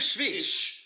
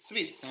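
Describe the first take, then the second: First: The word begins with a sh sound. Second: The word begins with an s sound. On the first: The speaker calls it wrong. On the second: The speaker calls it right.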